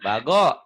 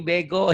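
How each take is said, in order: First: The first vowel sounds like 'a'. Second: The first vowel sounds like 'e'. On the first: The speaker calls it right. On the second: The speaker calls it wrong.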